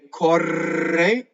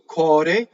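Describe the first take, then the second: First: The R is rolled with several taps. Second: The R is a single light tap. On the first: The speaker calls it wrong. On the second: The speaker calls it right.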